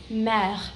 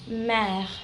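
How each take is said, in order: Both takes have the same delivery.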